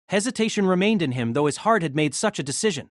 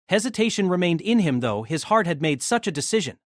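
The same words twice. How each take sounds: The two takes are said the same way.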